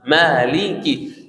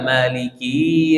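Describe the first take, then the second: First: The word ends with a short clear i. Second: The word ends with a lengthened i. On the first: The speaker calls it right. "harus kasrannya jelas Maliki" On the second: The speaker calls it wrong. "kasrannya berubah jadi huruf ya ... itu salah juga"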